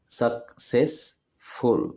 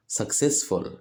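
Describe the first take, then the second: First: "successful" slowly as suc, cess, ful; split into syllables. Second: Said in the usual way. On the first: Shown as a demonstration. Teacher showing children three syllables, "successful" split slowly. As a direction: say "successful" in three separate beats. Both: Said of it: "كلمات فيها تلات مقاطع صوتية".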